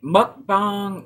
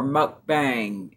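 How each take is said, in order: First: The last syllable sounds like bong. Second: The last syllable sounds like bang. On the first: "Is it bong or bang?" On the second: "Is it bong or bang?"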